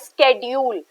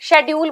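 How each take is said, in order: First: The word begins with an 'sk' sound. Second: The word begins with an 'sh' sound. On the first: The speaker calls it right. "The word is pronounce as स्केड्यूल" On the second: The speaker calls it wrong. "इसे सब शेड्यूल बोल देते हैं"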